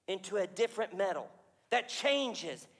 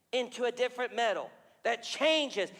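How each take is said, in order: Both takes have the same delivery.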